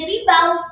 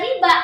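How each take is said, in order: First: The word ends in an 'au' sound. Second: The word ends in a plain 'a' sound. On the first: The speaker calls it wrong. "nggak jadi ribau" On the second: The speaker calls it right. "tetap dibaca riba"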